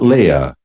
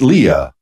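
First: The first syllable sounds like 'lay'. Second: The first syllable sounds like 'lee'. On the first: The speaker calls it wrong. "not Leah. She's not a princess" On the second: The speaker calls it right. "It's pronounced Leah"

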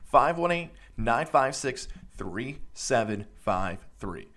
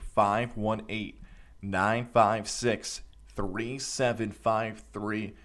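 First: The number is read at normal speed. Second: The number is read slowly and deliberately.

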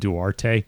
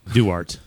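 First: The name ends with a sounded final vowel. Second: The name ends on a consonant sound. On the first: The speaker calls it wrong. "I keep calling him Duarte because I'm stupid and uncultured" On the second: The speaker calls it right. "Somebody was kind enough to give me a pronunciation of it"

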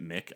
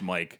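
First: The vowel is a short 'ih' sound. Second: The vowel is a long 'eye' sound. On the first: "a lot of people pronounce it Mick" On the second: "I think it's supposed to be pronounced Mike"

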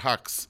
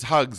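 First: The name ends with a voiceless 'ks' sound. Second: The name ends with a voiced 'gz' sound. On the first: The name is said normally. "not Hux" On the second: The name is twisted on purpose to mock him. "And it's Hugs"

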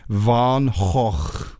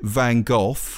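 First: The name is said with throat-clearing Dutch sounds. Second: The name is said the British way. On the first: "It's kind of like clearing your throat" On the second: "British people pronounce it Van Gogh"

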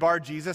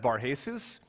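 First: The second part starts with a J sound. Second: The second part starts with an H sound. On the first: The speaker calls it right. "whenever I read Bar-Jesus" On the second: The speaker calls it wrong. "sometimes I pronounce it as Bar-Jesus. There is no good reason for this. He is not Spanish"

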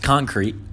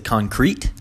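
First: The stress is on the first syllable. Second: The stress is on the second syllable. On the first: The speaker calls it right. "It's concrete. Just say concrete" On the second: The speaker calls it wrong. "why are you emphasizing crete at the end"

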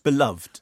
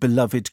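First: The word is said with two syllables. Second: The word is said with three syllables. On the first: "aren't you just beloved?" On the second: "why is it three syllables?"

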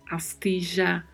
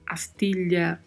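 First: The double L sounds like 'zh'. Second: The double L sounds like 'ly'. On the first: "som de J" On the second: "som de LH"

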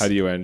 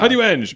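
First: It sounds flat and uninterested. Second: It sounds lively and excited.

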